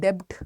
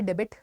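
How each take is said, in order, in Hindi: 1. इसमें एक सिलेबल है और b की आवाज़ है। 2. इसमें दो सिलेबल हैं और b की आवाज़ है। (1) "कोई इसको कहता है डेब्ट" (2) "कोई इसको कहता है डेबिट"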